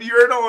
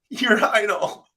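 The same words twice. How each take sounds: First: It is said with an American pronunciation. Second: It is said with a British pronunciation. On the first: "And I said urinal" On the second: "how do you think they pronounce it, Nate, in England?"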